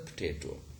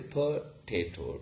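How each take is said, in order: First: No vowel is heard after the p. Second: A weak vowel is heard after the p. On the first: The speaker calls it right. "but rather" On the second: The speaker calls it wrong. "What we don't say"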